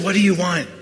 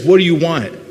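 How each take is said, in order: First: The question sounds gentle and caring. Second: The question sounds impatient and annoyed. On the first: The asker sincerely wants to help. The speaker calls it right. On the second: The asker is irritated by the request. The speaker calls it wrong.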